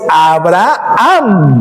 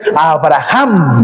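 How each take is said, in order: First: The h is silent, not sounded at all. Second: The h is said as a throaty j sound. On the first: The speaker calls it right. "no pronunciamos la H como J, ¿verdad? Nosotros decimos Abraham" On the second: The speaker calls it wrong. "muchos todavía dicen Abraham"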